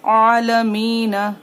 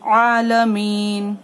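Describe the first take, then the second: First: आलमीन with an added a after the न; the mistake: आलमीन read as alamina; wrong ending. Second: आलमीन stopped dead on the न, long mī; correct paused ending. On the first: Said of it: "ऐसे नहीं पढ़ा मैंने". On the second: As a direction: end आलमीन cleanly on the न. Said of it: "नून पर जज्म देकर सांस तोड़ दी". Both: Shown as a demonstration.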